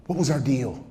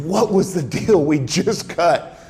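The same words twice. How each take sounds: First: Understated confronting question; retold quiet confrontation; measured challenge. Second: Slow, emphatic "What was the deal we just cut?"; "What was the deal we just cut?" drawn out and driven home; pressing repeat. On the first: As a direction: put the question evenly, holding back. Interrogator confronts caught liar. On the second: Retold or imitated. Interrogator repeats question, pressing harder.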